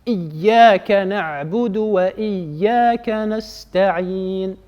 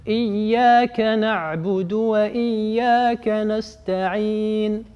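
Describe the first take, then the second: No difference in how they are said.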